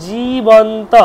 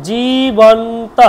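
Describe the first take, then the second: The two takes are said the same way.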